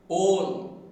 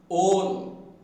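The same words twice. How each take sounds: No difference in how they are said.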